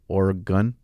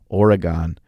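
First: The last syllable sounds like 'gun'. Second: The last syllable sounds like 'gone'. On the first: "It's G-U-N at the end. Gun" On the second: "I'm just pronouncing it how it's spelled. It's spelled G-O-N, gone"

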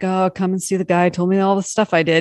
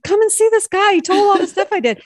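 First: It is said in a sad, ashamed tone. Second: It is said in an excited, happy tone.

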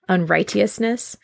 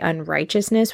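First: The 'right' part is said clearly as 'right'. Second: The 'right' part blends into a 'ch' sound. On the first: This is how people said it centuries ago. "because that was how the word was pronounced" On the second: This is how people say it today. "we wouldn't say unrighteousness"

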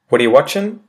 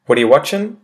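First: The words run together in a shortened form. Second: The words run together in a shortened form.

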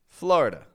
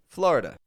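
No difference in how they are said.

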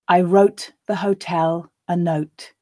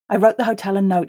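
First: The sentence is said slowly. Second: The sentence is said at a natural pace. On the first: "I'll read it slowly the first time for you to grasp the words" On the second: "and then twice at a more natural pace"

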